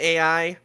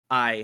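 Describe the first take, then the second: First: It is said as two separate letters. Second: It is said as one single syllable. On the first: It stands for artificial intelligence. "the abbreviation A I" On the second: It is the Japanese word for love. "is how you pronounce I as in like love"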